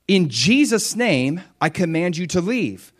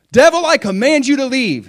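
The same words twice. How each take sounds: First: Command in Jesus' name. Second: High, loud command without authority; weak command. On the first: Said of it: "But when I say". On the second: Preacher shows a command with no authority, high and loud. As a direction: order the devil off on your own. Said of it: "if on my own I just say". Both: Shown as a demonstration.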